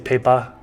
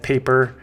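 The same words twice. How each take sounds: First: It is said with a Boston accent. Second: It is said without a Boston accent. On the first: "It's from Boston, so I say paper" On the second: "instead of paper"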